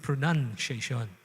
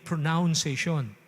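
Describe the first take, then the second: First: The second syllable sounds like 'nun'. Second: The second syllable sounds like 'noun'. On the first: The speaker calls it right. "kundi pronunciation" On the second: The speaker calls it wrong. "Hindi, hindi pronunciation"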